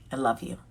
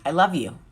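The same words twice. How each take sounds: First: A quieter, softer repeat; softer, tender repeat. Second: Said in the usual way. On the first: Real, not acted. Repeated sign-off, second take softer.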